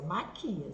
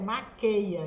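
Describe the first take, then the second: First: The verb ends with an 'ee-a' sound. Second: The verb ends with an 'ay-a' sound. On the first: The speaker calls it right. "Mas é maquia" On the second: The speaker calls it wrong. "Tem gente que acha que o certo é maqueia"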